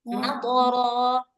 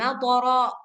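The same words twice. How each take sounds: First: The word ends without a glottal stop. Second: The word ends with an added glottal stop. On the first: The speaker calls it right. "jangan lupa ujungnya itu jangan ditambah hamzah" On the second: The speaker calls it wrong. "jangan matara"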